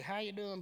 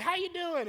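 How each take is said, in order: First: Said in the usual way. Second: High-pitched mock greeting; exaggerated high small-talk greeting; chirpy greeting. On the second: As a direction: toss out an overeager hello. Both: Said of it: "I don't be like".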